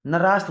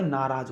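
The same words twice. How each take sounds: First: नाराज said "naraas", with an s ending; wrong "ras" ending. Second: Said in the usual way. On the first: Shown as a demonstration. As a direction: harden the end of नाराज into a hiss-like s. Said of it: "थोड़ी होगा भाई". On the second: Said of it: "होगा".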